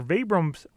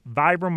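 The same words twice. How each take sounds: First: "Vibram's" said VEE-brumz; "Vibram's" opens like "vee"; long-E Vibram's. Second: "Vibram" said VY-brum; "Vibram" opens with an "eye" vowel; long-I Vibram. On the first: Host introduces guest from the company, "Vibram's" as VEE-brumz. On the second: Host introduces guest from the company, "Vibram" as VY-brum. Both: Shown as a demonstration. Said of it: "how to properly pronounce that company".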